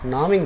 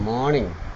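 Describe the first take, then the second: First: The word begins with an n sound. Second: The word begins with an m sound. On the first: The speaker calls it wrong. "నామింగ్ కాదు" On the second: The speaker calls it right.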